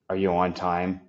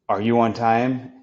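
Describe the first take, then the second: First: It sounds flat and curt. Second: It sounds warm and friendly.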